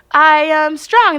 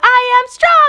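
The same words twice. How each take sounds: First: Slow call out. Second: High, loud echoed shout; crowd roaring back. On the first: Calls out declaration to crowd. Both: Retold or imitated.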